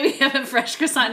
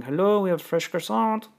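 First: Mock French accent, higher and louder. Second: Put-on light French accent, pitched up; a hint of a French receptionist. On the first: Retelling the wake-up call, in a mock French accent. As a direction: ham up a French hotel receptionist. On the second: Hotel receptionist's wake-up call, in a light French accent. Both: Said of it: "It's, like, some French accent".

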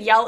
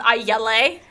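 First: Said in the usual way. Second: "yelle" said as yell-AY, two syllables; misspelled yell. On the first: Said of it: "instead of saying yell". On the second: Shown as a demonstration. Mocking a fanfic typo, "yelle" as yel-lay. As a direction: read "yelle" as yel-lay, sounding out the extra E. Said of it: "because it has an E on the end".

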